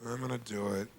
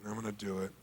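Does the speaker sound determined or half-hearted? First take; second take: half-hearted; half-hearted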